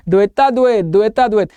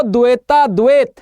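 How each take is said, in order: First: Put-on द्वैता द्वैत demonstrated in tongue-tied baby talk; mock lisp. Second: Said in the usual way. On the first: Shown as a demonstration. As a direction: pretend you can only lisp द्वैता द्वैत. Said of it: "तोतले में". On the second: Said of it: "तो द्वैता द्वैत निम्बकाचार्य का सिद्धांत".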